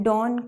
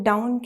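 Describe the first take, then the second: First: Dawn said with a long open aw vowel; correct dawn. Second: Down said with the ow vowel of cow, standing in for dawn; wrong dawn said as down. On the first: Teacher showing the right vowel in dawn. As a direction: say dawn as in law plus n. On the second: Teacher showing the wrong vowel in dawn. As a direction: say down where dawn is meant, the mistake. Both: Shown as a demonstration. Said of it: "हम dawn को down कहें तो वो तो गलत है".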